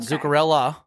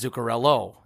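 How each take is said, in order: First: The name ends with an 'ah' sound. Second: The name ends with an 'oh' sound. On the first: The speaker calls it wrong. "It's not Zuccarella" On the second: The speaker calls it right. "It's Zuccarello. It's with an O"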